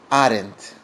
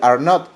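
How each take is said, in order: First: It is said as one contracted syllable. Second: It is said as two separate words. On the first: "volverlo un solo sonido" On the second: "Ya no decir are not"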